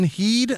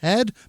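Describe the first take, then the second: First: The vowel is a long 'ee' sound. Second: The vowel is a short 'e' sound. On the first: The speaker calls it wrong. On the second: The speaker calls it right. "that's Head"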